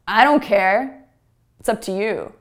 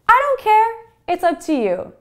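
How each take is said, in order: First: It is said in a heavy, upset tone. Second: It is said in a light, easy tone. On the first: The speaker sounds upset. The speaker calls it wrong. "Heavy, kind of upset tone" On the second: The speaker is relaxed about the choice. The speaker calls it right.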